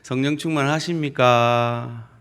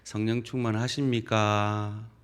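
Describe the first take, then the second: First: It is said in a Busan market-vendor accent. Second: It is said in a plain standard tone.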